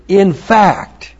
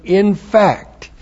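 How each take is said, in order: First: "In fact" said higher and louder, rising on "In"; translation spoken out. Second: "In fact" said higher, falling from "In"; translation spoken again. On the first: Teacher gives the class the translation, emphatic. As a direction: announce "In fact" with a lift on "In". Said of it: "you translate it". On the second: Teacher repeats the translation, settling it. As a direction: land "In fact" firmly with a falling close. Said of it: "It should be translated". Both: Shown as a demonstration.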